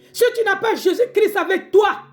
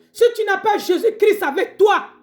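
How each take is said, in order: The two takes are said the same way.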